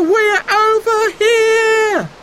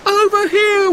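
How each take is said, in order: First: High loud call, slow and stretched; children calling, drawn out; drawn-out shout. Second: High loud call, quick; children calling to rescuers; shouted. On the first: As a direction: stretch the call long so they hear. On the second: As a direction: call out sharply to be seen. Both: A narrator's reading. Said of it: "they shouted".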